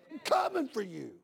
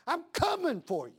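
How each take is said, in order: First: Said in the usual way. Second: Higher threat, leaning on coming; preaching threat. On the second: Real, not acted. Father warning whoever would hurt his boy, high and firm.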